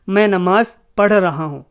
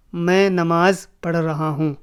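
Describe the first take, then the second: No difference in how they are said.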